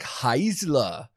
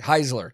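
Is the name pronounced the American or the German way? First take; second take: German; American. First: The name is pronounced with German sounds. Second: The name is pronounced with American English sounds. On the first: "really making me want to pronounce that super German" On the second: "we're just going to go with the American way"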